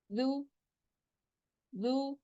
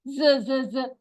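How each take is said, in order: First: जू said softly, no buzzing; soft quiet जू. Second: ज with a buzzing z sound; buzzing ज, not this way; wrong buzzing z. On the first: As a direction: gently say जू from the tongue tip. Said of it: "जू नरमी से अदा होगा". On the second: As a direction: buzz the ज as the mistake. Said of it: "ऐसे नहीं". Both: Shown as a demonstration.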